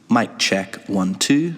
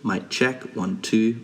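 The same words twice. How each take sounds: First: The voice sounds clear and crisp. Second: The voice sounds dull and less clear. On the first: The speaker calls it right. "when I'm pointing the microphone towards the sound source, I'm going to get a lot more clear and crisp" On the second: The speaker calls it wrong. "now facing away from the sound source"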